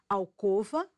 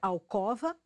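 First: The stressed o sounds closed. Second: The stressed o sounds open. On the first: The speaker calls it right. "Pronúncia correta, timbre fechado" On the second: The speaker calls it wrong. "é errado pronunciar ... como se o timbre fosse aberto"

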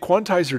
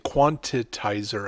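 First: The word has no extra middle syllable. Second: The word has an extra syllable in the middle. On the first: The speaker calls it right. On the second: The speaker calls it wrong.

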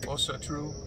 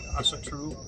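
First: The first vowel is a rounded 'oh' sound. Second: The first vowel is an open 'ah' sound. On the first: The speaker calls it right. "but it's pronounced os" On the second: The speaker calls it wrong. "So you could say Asa"

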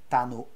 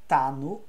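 Both takes have the same delivery.

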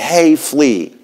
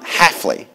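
First: The last syllable sounds like 'flea'. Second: The last syllable does not sound like 'flea'. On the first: The speaker calls it right. "it's like calling a flea" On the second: The speaker calls it wrong.

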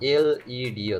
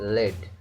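First: It is said as three separate letter names. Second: It is said as one single-syllable word. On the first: The speaker calls it right. "এটার না এলইডি" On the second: The speaker calls it wrong. "অনেকেই এটাকে লেড বলে থাকেন, কিন্তু এটা সম্পূর্ণ ভুল"

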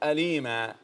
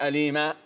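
First: The word ends on a soft release of breath. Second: The word ends on an abrupt glottal stop. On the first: The speaker calls it right. "تقف على الهواء كده" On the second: The speaker calls it wrong. "كأنك وقفت بهمز"

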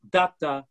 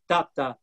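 First: The stress falls on the first syllable. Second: The same.

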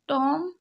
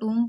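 First: The vowel is a short 'o' sound. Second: The vowel is a long 'oo' sound. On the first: The speaker calls it wrong. "टॉम नहीं पढ़ेंगे" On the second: The speaker calls it right. "इसको टूम पढ़ेंगे"

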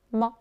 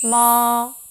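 First: It is light and brief, barely stressed. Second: It stays high and level, held long. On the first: "살짝 잡아주는 경성" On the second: "일성은 높은 음을 길게 빼줍니다"

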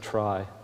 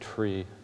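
First: The word has an eye vowel, like try. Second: The word has an ee vowel, like tree. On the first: The speaker calls it right. "Who pronounces it try? ... Try is a much better way" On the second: The speaker calls it wrong. "who pronounces tree with an I tree?"

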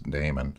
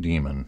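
First: The word does not sound like 'demon'. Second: The word sounds like 'demon'. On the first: It names a background process. The speaker calls it right. "It's daemon. So that means it's a background process" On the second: It names an evil spirit. The speaker calls it wrong. "it's not daemon. It's not possessed"

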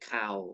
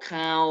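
First: The syllable has a low tone. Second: The syllable has a falling tone. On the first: "ไม้เอกเข่า" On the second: "ไม้โทเข้า"

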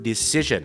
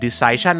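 First: The second syllable has a short 'ih' vowel. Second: The second syllable has the 'eye' vowel of decide. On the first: The speaker calls it right. "ถูกต้อง" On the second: The speaker calls it wrong. "ถามว่าการตัดสินใจคือ"

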